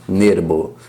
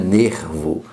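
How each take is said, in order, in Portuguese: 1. O R é um som fraco e leve. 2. O R é um som forte e mais pesado. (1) "esse R aqui tem um som de Re fraco" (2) "não é nervo, como falamos em português"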